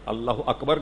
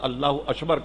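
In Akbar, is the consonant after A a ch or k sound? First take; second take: k; ch. First: Akbar is said with a k sound. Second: Akbar is said with a ch sound. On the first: The speaker calls it right. "के बजाय" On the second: The speaker calls it wrong. "काफ को चे से बदल दिया"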